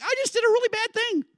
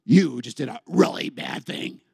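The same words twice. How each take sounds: First: Very high panicked squeal; hammed-up Eve in a panic; freaking out. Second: Low, slow devil voice; slow, taunting low delivery; accusing devil. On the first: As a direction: squeal it in alarm, pitched way up. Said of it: "she's freaking out". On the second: Acted. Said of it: "the devil goes".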